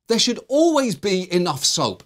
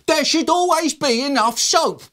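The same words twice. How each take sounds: First: It is said in a normal speaking voice. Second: It is shrieked in a high, loud voice.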